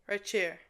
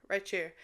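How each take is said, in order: No difference in how they are said.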